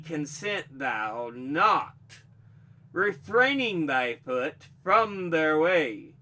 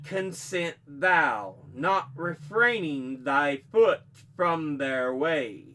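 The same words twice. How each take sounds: First: The pause comes after the word not. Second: The pause comes before the word not.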